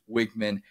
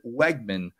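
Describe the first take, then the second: First: The first syllable does not sound like 'Weg'. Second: The first syllable sounds like 'Weg' in Wegmans. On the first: The speaker calls it right. "instead of what it actually is" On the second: The speaker calls it wrong. "They still pronounce it Weigman, like the grocery store Wegmans"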